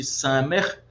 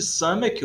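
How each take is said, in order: First: "samer" ending in r, no k; name the variant "samer" with final r; samer pronunciation. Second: "samek" ending in a hard k; name the variant "samek" with final k; samek pronunciation. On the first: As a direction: say "samer", closing on an r sound. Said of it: "outros chamam de samer". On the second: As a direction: say "samek", closing on a k sound. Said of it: "Alguns chamam de samek". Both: Shown as a demonstration.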